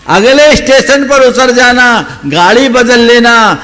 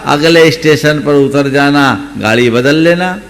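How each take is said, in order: First: Higher and louder, insisting on अगले and बदल; emphatic repeat. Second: Said in the usual way. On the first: Shown as a demonstration. Old woman repeating her advice to the boy, higher, louder and insistent. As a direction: drive the advice home forcefully. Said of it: "advice repeated". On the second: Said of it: "old woman's advice".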